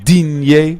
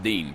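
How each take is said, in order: First: The name is said the French way. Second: The name sounds exactly like English 'Dean'. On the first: The speaker calls it right. "the woman on Google Translate goes, Digne" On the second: The speaker calls it wrong. "like Dean as in the Dean of Medicine"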